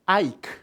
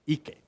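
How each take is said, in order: First: It sounds like the English name Ike. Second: It is said with Hawaiian vowels, as written. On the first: The speaker calls it wrong. "you don't pronounce like Ike in English" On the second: The speaker calls it right. "you pronounce as it's written"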